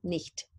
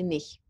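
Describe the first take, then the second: First: The final T is clearly pronounced. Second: The final T is dropped. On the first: "I don't usually hear myself saying nicht" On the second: "I say nicht"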